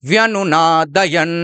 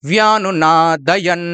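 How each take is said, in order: No difference in how they are said.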